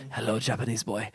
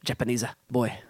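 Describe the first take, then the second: First: Put-on unconvincing stab at an Italian accent; soft, badly faked Italian that could pass for Japanese; botched Italian accent. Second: Hammy Italian accent with added vowels; mock Italian, a little closer this time; improved Italian accent. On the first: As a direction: try an Italian accent and miss. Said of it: "was that supposed to be Italian". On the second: Shown as a demonstration. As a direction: softly fake an Italian accent, adding a vowel after "Japanese". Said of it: "that's a little better".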